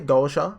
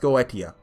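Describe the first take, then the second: First: The ending is pronounced as 'sha'. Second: The ending is pronounced as 'tee-ah'. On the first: "I've heard people say Gosha, ... Pronouncing the Tia as Sha" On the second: "I have come to the conclusion it's pronounced Goetia"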